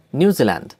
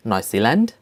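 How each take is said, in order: First: Said in the usual way. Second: "New Zealand" in German, as NOY-see-lahnt, rising; German-style "New Zealand", lifted at the end; German pronunciation. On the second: Shown as a demonstration. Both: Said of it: "names of countries with German accent".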